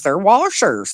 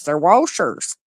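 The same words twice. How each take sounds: First: "washers" said plainly, no R before the sh; the standard "washers" with no R added. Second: Imitating "washers" as "warshers", an R slipped in before the sh; the up-east "washers" with a rolled-in R. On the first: Shown as a demonstration. Showing Shelley the usual way to say "washers" with no R. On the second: Mimicking how people up east say "washers", with an added R. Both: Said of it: "They add R's to shit".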